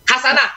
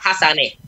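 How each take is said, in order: First: The final vowel is an open 'a' sound. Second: The final vowel is tilted toward an 'e' sound.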